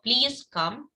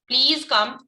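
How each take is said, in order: First: It is said softly and gently. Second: It is said louder, with forceful emphasis. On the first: It is a kind, gentle request. "मैंने बड़े प्यार से बोल दिया" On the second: The request is insistent. "थोड़ा सा अपनी आवाज में चेंज करके इसको एम्फेसाइज किया, थोड़ा जोर से बोला"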